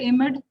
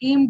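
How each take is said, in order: First: The word is said with two syllables. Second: The word is said with one syllable. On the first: The speaker calls it wrong. "सबसे पहले एमेड आपने कहा था" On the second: The speaker calls it right. "एम्ड होगा इसका सही pronunciation"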